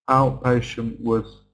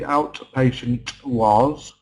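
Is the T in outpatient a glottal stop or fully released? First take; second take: glottal stop; released. First: The T is a glottal stop, a tiny break. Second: The T is fully pronounced and released. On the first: The speaker calls it right. "Outpatient was, not" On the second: The speaker calls it wrong. "not the outpatient was"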